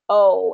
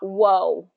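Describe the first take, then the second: First: The vowel starts cleanly with no w sound. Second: The vowel starts with a w glide. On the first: The speaker calls it right. "make sure it's saying starting with that letter O" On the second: The speaker calls it wrong. "and not whoa"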